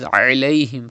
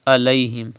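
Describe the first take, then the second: First: "alayhim" with a squeezed Arabic Ain; throaty Ain. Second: "alayhim" opened with a plain a; mistaken Hamza. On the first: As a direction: open "alayhim" from mid-throat. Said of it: "from the middle part of your throat". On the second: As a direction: say "alayhim" with Hamza in place of Ain. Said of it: "that means you are reading Hamza". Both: Shown as a demonstration.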